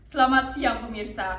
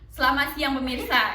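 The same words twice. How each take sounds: First: The voice is full and resonant from the belly. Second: The voice is thin and shrill from the throat. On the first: The speaker calls it right. "itu suara perut gitu" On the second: The speaker calls it wrong. "Kalau misal jadi suara tenggorokan tuh bakal jelek"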